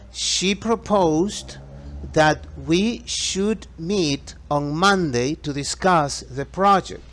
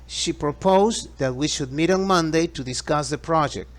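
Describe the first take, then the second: First: The sentence is spoken at a slower pace. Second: The sentence is spoken at a faster pace.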